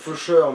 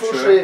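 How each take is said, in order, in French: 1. Le nom est prononcé à l'anglaise. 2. Le nom est prononcé à la française. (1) "en anglais ça doit se dire faucheur" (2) "en V F on dirait fauché"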